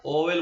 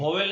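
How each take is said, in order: First: ओवेल starting on a pure O, "o-vel"; corrected pronunciation. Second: वोवेल with a V/W sound in front, "vo-vel"; wrong pronunciation. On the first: Teacher correcting the students' word, corrected pronunciation. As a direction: open ओवेल on "o", no V in front. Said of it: "ओवेल बोलते हैं". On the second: Teacher showing students what not to say, wrong pronunciation. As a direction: start वोवेल on a consonant, "vo". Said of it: "वोवेल नहीं बोलते बेटा". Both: Shown as a demonstration.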